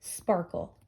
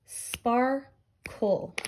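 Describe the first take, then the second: First: Said in the usual way. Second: "sparkle" in two beats, spar, kull; teacher sounding out "sparkle" by syllable; split into syllables. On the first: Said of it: "sort them ... by their matching sounds". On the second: Shown as a demonstration. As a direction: pause between spar and kle in "sparkle". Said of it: "this is a two-syllable word".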